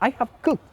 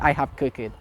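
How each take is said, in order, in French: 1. La terminaison est une seule consonne, pas de syllabe en plus. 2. La terminaison se prononce comme une syllabe en plus. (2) "Why you say I have cooked it?"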